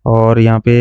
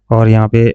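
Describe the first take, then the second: No difference in how they are said.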